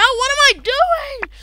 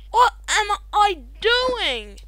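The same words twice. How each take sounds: First: High, loud panicked wail; panicked cry. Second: Said in the usual way. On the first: Real, not acted. Caught off guard in the game, high panicked cry. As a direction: cry it out in alarm.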